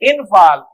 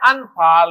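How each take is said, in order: First: The first vowel sounds like 'i'. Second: The first vowel sounds like 'a'. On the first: The speaker calls it wrong. "इनफाल लफ्ज सही नहीं है" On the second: The speaker calls it right. "लफ्ज है अनफाल"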